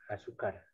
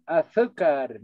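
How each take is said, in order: First: Azúcar with a plain s, "asúcar", said softer; Andean azúcar. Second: Azúcar with a th sound, "athúcar"; Castilian azúcar. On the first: Teacher contrasting the local s pronunciation, softly. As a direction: say azúcar with an s, not a th. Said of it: "sino decimos". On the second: Teacher showing students the Spain Spanish pronunciation, th sound. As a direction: say azúcar the Peninsular way, z as th. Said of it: "como en el castellano peninsular". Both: Shown as a demonstration.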